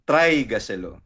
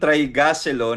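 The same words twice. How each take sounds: First: The stress is on the first syllable, trai. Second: The stress is on the second syllable, ga. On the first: The speaker calls it right. "Dapat nasa try" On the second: The speaker calls it wrong. "nasa ga yung diin mo"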